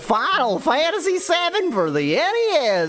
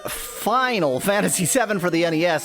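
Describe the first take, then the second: First: It is said in an exaggerated, silly voice. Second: It is said in a plain, normal voice.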